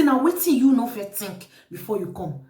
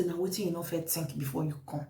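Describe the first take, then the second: First: Reproachful question in full voice; firm rebuke. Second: Low, very soft reproachful question; quiet rebuke. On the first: Host repeating the question to accusing visitor, firm rebuke. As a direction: put the question squarely, at normal volume. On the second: Host questioning the visitor who came accusing, quiet rebuke. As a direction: ask it under control, low and soft. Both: Retold or imitated.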